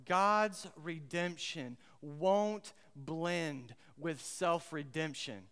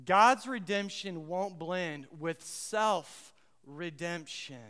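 First: Each word laid down slowly; slow, deliberate statement. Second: Slow and firmer, a bit louder; emphatic repeat. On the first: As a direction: spell out the big idea word by word. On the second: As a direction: drive the big idea home. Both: Shown as a demonstration. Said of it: "here's the big idea".

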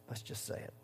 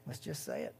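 First: Whispered, barely audible. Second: Softer, low invitation; quiet. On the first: Preacher whispering the confession to the church. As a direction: breathe it out as a secret. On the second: Preacher inviting the church to confess, quietly. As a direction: murmur it gently. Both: Shown as a demonstration.

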